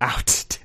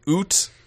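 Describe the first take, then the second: First: The vowel is an ow sound. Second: The vowel is a long oo sound. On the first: The speaker calls it right. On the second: The speaker calls it wrong.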